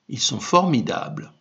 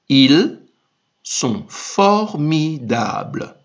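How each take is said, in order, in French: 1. Elle est lue à un rythme normal, plutôt rapide. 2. Elle est lue un peu plus lentement.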